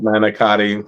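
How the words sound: It is said fully, with every syllable and ending. "not manicotti"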